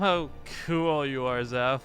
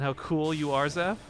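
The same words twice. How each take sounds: First: It sounds sarcastic and mocking. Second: It sounds sincere and enthusiastic. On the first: The speaker is mocking the other person. "if I was being sarcastic, be like" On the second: The speaker is genuinely building the other person up. "That wasn't sarcasm"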